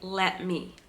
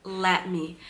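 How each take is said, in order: No difference in how they are said.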